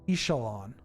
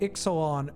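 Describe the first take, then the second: First: The middle consonant is sounded as 'sh'. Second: The middle consonant is sounded as 'ks'. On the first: "not the English pronunciation of the X" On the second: "we do pronounce the X for the name of the set"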